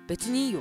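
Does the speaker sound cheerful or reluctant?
reluctant. It sounds hesitant and displeased. The person is actually unhappy about it. "別にいいよって言われるのだったら全然違う"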